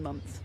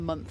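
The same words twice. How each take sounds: First: It ends with a clear 'th' sound. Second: The 'th' is swapped for another sound. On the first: "things like maths and month" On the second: "Germans just they just go for the month"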